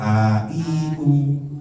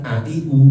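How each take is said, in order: First: Each vowel is held for two beats. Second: Each vowel is held for one short beat. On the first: "nah itu berarti dua harokat" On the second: "a i u itu satu harokat"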